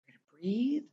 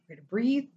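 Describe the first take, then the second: First: "We're gonna breathe" whispered softly; soothing whisper. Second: Soothing. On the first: Guiding a distressed friend to breathe, in a whisper. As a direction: hush it to calm them. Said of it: "strike the soothing". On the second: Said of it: "being like". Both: Shown as a demonstration.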